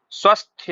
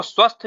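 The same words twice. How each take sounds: First: स्वस्थ with a "ya" glide after the "th", "svasthya"; correct pronunciation. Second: स्वस्थ ending on "th" with no "ya"; wrong pronunciation. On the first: Teacher models it for students, correctly pronounced. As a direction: add an audible "ya" to the end of स्वस्थ. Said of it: "यह है सही उच्चारण इसका". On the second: Teacher flags the misspelt form, mispronounced. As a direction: end स्वस्थ straight on the "th". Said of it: "ये गलत है". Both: Shown as a demonstration.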